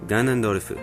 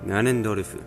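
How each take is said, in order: First: It is said with Japanese sounds, ending in fu. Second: It is said with Japanese sounds, ending in fu.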